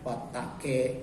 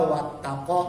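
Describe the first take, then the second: First: The final vowel is tilted toward an e sound. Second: The final vowel is an open a sound. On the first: This is how it is read in that tradition. "dibaca wattaqe" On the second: This is how it is written.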